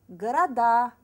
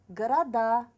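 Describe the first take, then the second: No difference in how they are said.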